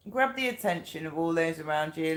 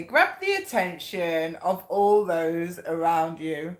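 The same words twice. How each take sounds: First: Said in the usual way. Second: Slow, measured card reading. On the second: Real, not acted. Reader announcing the card's message to viewers, slow read-out. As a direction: read it out slowly, stretching the phrase. Reads card out, then repeats it.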